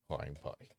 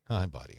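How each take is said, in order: First: Said in the usual way. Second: Louder, fond "Hi, buddy"; pet greeting. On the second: Real, not acted. Owner greets his dog again, louder and fonder. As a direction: greet him again with more lift.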